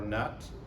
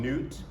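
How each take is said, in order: First: The vowel sounds like 'uh' in 'cut'. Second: The vowel sounds like 'oo' in 'new'. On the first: "we'll call him Newt or Nut" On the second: "we'll call him Newt or Nut"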